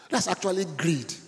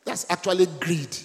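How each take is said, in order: First: "That's actually greed" said slower, each word weighed; slow, emphatic repeat. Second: Said in the usual way. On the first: Shown as a demonstration. Pastor repeats the warning to the congregation, slow and weighty. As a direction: drive home "That's actually greed" slowly. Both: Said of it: "You know what I just said?".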